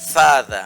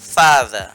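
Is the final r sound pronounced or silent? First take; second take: silent; silent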